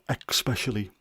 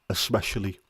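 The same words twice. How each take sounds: First: The word begins with an added 'ex' sound. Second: The word begins with a plain 'es' sound. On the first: The speaker calls it wrong. "It's not" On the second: The speaker calls it right. "there's no X in the word"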